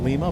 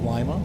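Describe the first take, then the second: First: The i is said like ee. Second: The i is said like eye. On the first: This is how most people say it. "most people would call it Lima" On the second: This is how people in Ohio say it. "but we have Lima"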